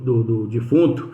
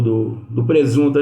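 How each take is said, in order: First: Said in the usual way. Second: Says "presunto" by mistake, stumbling; halting "do, do presunto" before catching the slip; slip of the tongue. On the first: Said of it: "presunto não, me desculpe". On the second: Real, not acted. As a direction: trip over the word and say "presunto" instead of "defunto". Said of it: "Eu ia falar defunto, foi presunto".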